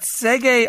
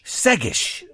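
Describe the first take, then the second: First: The name is said the French way. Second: The name is said the Irish way. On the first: The speaker calls it wrong. "I think you're thinking French" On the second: The speaker calls it right. "Irish. Segish"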